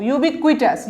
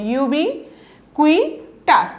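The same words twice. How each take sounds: First: Said in the usual way. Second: ইউবিকুইটাস very slowly, with gaps between ইউবি, কুই and টাস; broken into syllables. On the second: Shown as a demonstration. Teacher showing learners how to pronounce ইউবিকুইটাস, slowly broken into syllables. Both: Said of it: "ভেঙে ভেঙে উচ্চারণ করবেন".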